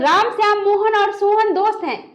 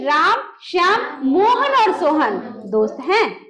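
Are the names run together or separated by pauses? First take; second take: run together; separated. First: The names run together without pauses. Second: Short pauses separate the names. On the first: The speaker calls it wrong. "ऐसे नहीं बोलना है" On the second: The speaker calls it right. "बोलेंगे"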